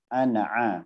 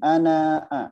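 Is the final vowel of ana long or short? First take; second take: Short; Long. First: The final vowel of ana is short. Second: The final vowel of ana is long. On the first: The speaker calls it right. "dibaca pendek" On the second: The speaker calls it wrong. "bukan ana a"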